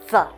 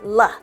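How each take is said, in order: First: The first sound is a breathy th with air. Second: The first sound is a hard tongue stop. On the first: The speaker calls it right. "there should be air touching here" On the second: The speaker calls it wrong. "It shouldn't be"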